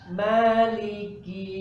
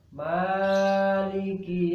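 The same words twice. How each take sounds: First: The first vowel is held for two counts. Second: The first vowel is stretched to four counts. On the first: The speaker calls it right. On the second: The speaker calls it wrong.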